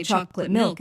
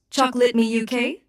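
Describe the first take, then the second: First: Said in the usual way. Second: Attempted British accent. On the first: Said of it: "in a British accent". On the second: Shown as a demonstration. Assistant obliging a user's request, attempted British accent. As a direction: try a British accent on "Chocolate me U K", pitched up. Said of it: "my best attempt at a British accent".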